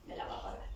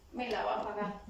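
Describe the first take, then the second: First: A secret vow of revenge, barely breathed; whispered grudge. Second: Said in the usual way. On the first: Retold or imitated. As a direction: whisper it to yourself, bitter and low-key. Imitating a resentful inner thought. (susurro rencoroso)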